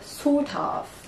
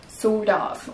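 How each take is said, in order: First: The T is a clear T sound. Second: The T sounds like a D. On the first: "les Britanniques vont peut-être dire sort of" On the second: "Mais les Américains ... on va entendre un D"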